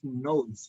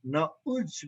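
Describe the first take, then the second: First: The word is said quickly with a reduced vowel. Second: The word is said slowly with a full vowel glide.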